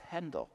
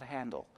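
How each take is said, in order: First: The first vowel is like the 'e' in 'bed'. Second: The first vowel is like the 'a' in 'hand'. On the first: The speaker calls it right. "It's Handel" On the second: The speaker calls it wrong. "not Handel"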